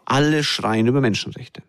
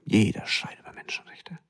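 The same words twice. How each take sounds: First: Said in the usual way. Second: Hushed, breathy whisper of the same line; softer whispered echo of the complaint. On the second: Shown as a demonstration. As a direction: drop to a whisper on the repeat. Repeats it, dropping to whisper.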